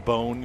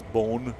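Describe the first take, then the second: First: Said in the usual way. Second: "bone" in an English country accent; English country accent on the word "bone"; wife's English accent. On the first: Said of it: "instead of saying bone". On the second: Shown as a demonstration. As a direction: imitate an English country "bone", vowel shifted. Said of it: "you know, she says bone".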